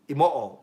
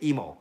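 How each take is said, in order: First: Every syllable is sounded out, Japanese style. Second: The name is shortened, English style. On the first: "if I was to say it properly, it's Imoo. Imoo, because you say every syllable in Japanese" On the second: "I don't say imoo because it sounds like I'm stuttering, so I say emo"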